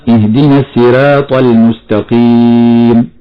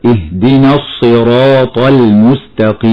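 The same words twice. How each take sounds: First: الصراط with the ر made thin, not heavy; showing the wrong thin ra; thin ra error. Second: الصراط with a full, heavy ر; the correct heavy ra. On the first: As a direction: say الصراط with a light ر, as a mistake. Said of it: "فنقول خطأ". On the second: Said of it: "والصواب أن تفخم هكذا". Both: Shown as a demonstration.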